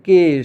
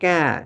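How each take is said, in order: First: The vowel is a closer 'e' sound. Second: The vowel is an open 'ae' sound. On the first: The speaker calls it right. "এভাবেই থাকবে" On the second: The speaker calls it wrong. "এরকম উচ্চারণ করা যাবে না"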